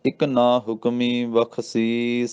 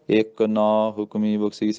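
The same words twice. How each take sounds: First: ਇਕ ਨਾ said as one unit, very slowly, pause after ਬਖਸ਼ੀਸ; ਇਕ ਨਾ ਇਕੱਠਾ, ਹੌਲੀ; right phrasing, slow. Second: ਇੱਕ ਨਾ said in a sung beat, at normal pace; the wrong way, bent to a tune; ਲੈ ਤਾਲ ਵਿੱਚ, ਗਲਤ; wrong rhythm. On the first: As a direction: correct slow chant joining ਇਕ ਨਾ. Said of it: "ਇੱਥੇ ਵਿਸਰਾਮ ਆ ਜੀ". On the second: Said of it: "ਪਰ ਇੰਝ ਨਹੀਂ ਕਹਿਣਾ". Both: Shown as a demonstration.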